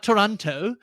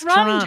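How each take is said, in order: First: The second T sound is clearly pronounced. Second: The second T sound is dropped. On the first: The speaker calls it wrong. "Not Toronto" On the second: The speaker calls it right. "They don't really have the second T"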